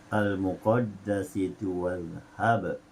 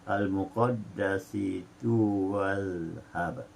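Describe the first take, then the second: Both takes have the same delivery.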